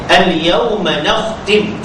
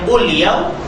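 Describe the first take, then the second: First: The word starts with an 'a' vowel. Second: The word starts with a 'u' vowel. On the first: The speaker calls it right. "Jadi ini kena baris atas" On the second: The speaker calls it wrong. "kita tak boleh baca ul-yaw"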